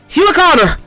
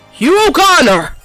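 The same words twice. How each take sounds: First: The name is shouted at a faster pace. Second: The name is shouted at a slower pace.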